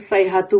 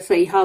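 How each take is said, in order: First: The word ends with a 'tu' sound. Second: The word ends with an open 'a' vowel. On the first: "तो ता मरबूता एंड में है ना, तो सैहतु बोलो" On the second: "या सैहा बोलो चलेगा"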